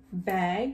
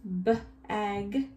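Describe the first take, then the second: First: Said in the usual way. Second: "B-ag" split into b and ag; sounded out. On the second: Shown as a demonstration. Teacher helping children write the word, sounded out. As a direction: sound out B, then ag. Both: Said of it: "Write it two times".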